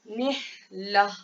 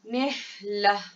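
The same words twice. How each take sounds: No difference in how they are said.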